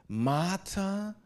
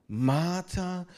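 No difference in how they are said.

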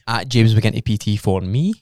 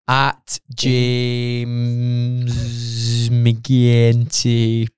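First: It is said at a normal, quick pace. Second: It is said more slowly and deliberately.

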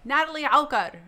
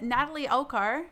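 First: The name is said with an Arabic pronunciation. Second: The name is said with an English pronunciation. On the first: The speaker calls it right. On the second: The speaker calls it wrong. "didn't say your name right this time"

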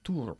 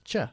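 First: The ending is said with a plain t, 'tur'. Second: The ending is said with a 'ch' sound. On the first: The speaker calls it wrong. "ni tur" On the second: The speaker calls it right. "It's ch, like picture"

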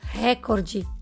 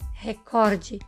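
First: The stress falls on the first syllable. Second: The stress falls on the second syllable. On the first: The speaker calls it wrong. "e não recorde" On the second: The speaker calls it right. "o correto é recorde"

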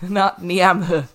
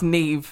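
First: The name is read out as it is spelled. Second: The name is said with its Irish pronunciation. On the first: The speaker calls it wrong. "not Niamh" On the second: The speaker calls it right. "It's Neve"

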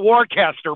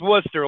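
First: The name is said the non-local way. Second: The name is said the local way. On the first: "This is called a Worcester" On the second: "but it's Worcester locally"

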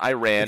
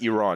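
First: The word sounds like the phrase 'I ran'. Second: The word does not sound like 'I ran'. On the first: The speaker calls it wrong. "I didn't ran to the store, okay?" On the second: The speaker calls it right. "It's Iran, okay, guys? Iran, not Iran"

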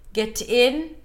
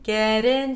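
First: A hard T separates the two words. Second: A soft flap links the two words. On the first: The speaker calls it wrong. "sounds a little choppy" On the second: The speaker calls it right. "See how I'm forced to connect the two words once I use the flappedt?"

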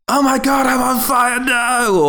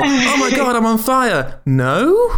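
First: It sounds despairing, like someone dying. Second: It sounds hopeful, like someone surviving.

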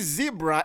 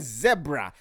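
First: The word does not rhyme with Debra. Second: The word rhymes with Debra. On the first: This is how Americans say it. The speaker calls it wrong. "You say zebra. It is not called a zebra" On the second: This is how Africans say it. The speaker calls it right. "It's a zebra, just like Debra"

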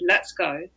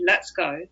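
First: It is said in a quiet, calm voice. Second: The same.

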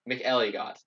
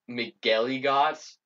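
First: The middle G sounds single. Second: The middle G sounds doubled. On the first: The speaker calls it right. "McElligott, not McElligott" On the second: The speaker calls it wrong. "I've been saying, like, McElligott, as in, like, two G's"

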